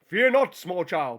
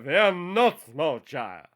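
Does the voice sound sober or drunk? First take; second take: sober; drunk. First: It is said in a normal heroic Superman voice. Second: It is said in a drunk Superman voice.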